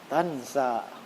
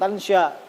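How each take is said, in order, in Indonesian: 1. Konsonan tengahnya bunyi 's'. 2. Konsonan tengahnya bunyi 'sh'. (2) "Bukan tansya"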